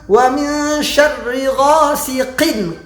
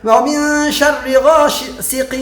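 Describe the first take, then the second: First: The final n sound is pronounced clearly. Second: The final n sound is blurred and unclear. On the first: The speaker calls it right. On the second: The speaker calls it wrong.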